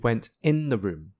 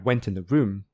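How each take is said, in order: First: The word 'in' is stressed. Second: The word 'in' is unstressed. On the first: "stressing the preposition like this" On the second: "the preposition is unstressed"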